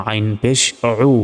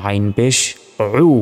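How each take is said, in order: No difference in how they are said.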